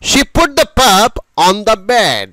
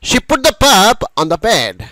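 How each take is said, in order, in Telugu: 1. ఈ వాక్యం నెమ్మదిగా, స్పష్టంగా పలకబడుతుంది. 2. ఈ వాక్యం వేగంగా, సహజ సంభాషణలా పలకబడుతుంది.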